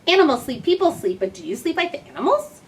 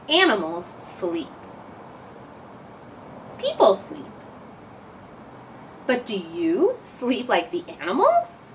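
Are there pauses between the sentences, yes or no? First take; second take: no; yes. First: It is read in one breath without pauses. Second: It is read with pauses between sentences.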